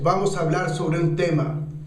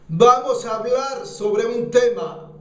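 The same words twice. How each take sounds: First: It is said at a normal speaking volume. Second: It is said louder, with a strong push. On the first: "estás hablando" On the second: "la impulsas, la, llevas la voz acá y lo impulsas con el diafragma"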